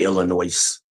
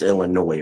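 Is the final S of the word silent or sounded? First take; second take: sounded; silent. First: The final S is pronounced. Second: The final S is silent. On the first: The speaker calls it wrong. "I hate when people say Illinois" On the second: The speaker calls it right. "You don't pronounce the S. It's Illinois"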